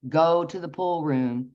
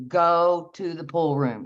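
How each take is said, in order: First: Measured, slow inner voice; voice in the head. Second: Slow, insistent command with weight on GO. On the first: Voice in her head as she goes to bed, slow and even. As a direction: deliver it slowly, as a prompting heard inwardly. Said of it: "I hear in my head". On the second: Inner voice ordering her out of bed, slow command. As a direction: order it slowly, leaning on the first word. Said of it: "a demand, a command thing". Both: Retold or imitated.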